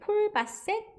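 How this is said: The name is said with Korean-style pronunciation. "한국말로는 이렇게 부르는데"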